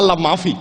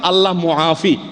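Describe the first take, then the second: First: The second word has two syllables, ma-fi. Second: The second word has three syllables, mu-a-fi. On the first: There is no God. The speaker calls it wrong. "মানে আল্লাহই নাই, নাউজুবিল্লাহ" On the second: God is the giver of well-being. The speaker calls it right. "শব্দটা হলো আসলে"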